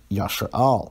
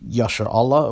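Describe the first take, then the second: First: The word ends with a short one-syllable 'Al'. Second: The word ends with a full two-syllable 'Allah'. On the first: This is an increasingly common form. "you see more and more people saying Yashar Al" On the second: This is the standard form. "Most proponents of Lashwan Kodash would say that Yashar Allah is standard"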